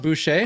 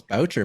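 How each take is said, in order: First: Boucher said the French way, boo-SHAY; host asks guest if his name is Boucher, French boo-SHAY; French pronunciation. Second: Boucher said the English way, BOW-cher; English pronunciation. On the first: Shown as a demonstration. Say Boucher as boo-SHAY, stress on the end. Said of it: "is it not pronounced". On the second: Retold or imitated. Say Boucher as BOW-cher, stress on the start. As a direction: friend insists the name is Boucher, said BOW-cher. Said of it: "he was saying".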